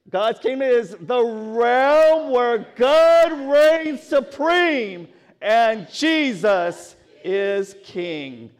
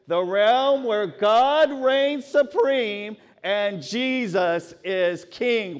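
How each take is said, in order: First: It is said forcefully, with strong energy. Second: It is said in a plain, calm way.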